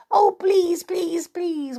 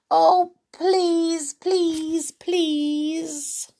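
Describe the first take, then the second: First: Much higher, whiny mock begging; imitating her children. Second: Much higher, whiny begging; pleading child. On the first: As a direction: copy the kids' wheedling please. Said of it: "my children say". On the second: Acted. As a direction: wheedle like a child who wants it badly.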